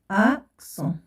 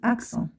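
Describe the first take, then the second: First: "أكسون" split into ak and son with a pause. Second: Said in the usual way. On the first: Shown as a demonstration. Teacher dictates syllables while writing.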